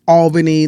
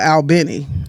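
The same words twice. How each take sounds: First: It is pronounced the New York way. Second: It is pronounced the Georgia way. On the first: "like New York" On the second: "they call it Albany"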